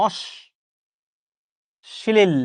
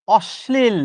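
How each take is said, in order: First: "অশ্লীল" as long osh... pause, shlil; syllable-split pronunciation. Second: "অশ্লীল" said osh-slil as one word; pronunciation demo. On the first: Teacher proving spelling differs from sound, "অশ্লীল" split osh-shlil. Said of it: "উচ্চারণটা কিন্তু ঠিক এরকম". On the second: Teacher showing the sound, "অশ্লীল" as one careful word. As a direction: say "অশ্লীল" deliberately, leaning on the sh. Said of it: "উচ্চারণটা কিন্তু এরকম". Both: Shown as a demonstration.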